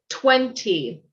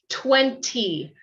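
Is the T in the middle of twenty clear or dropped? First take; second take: clear; clear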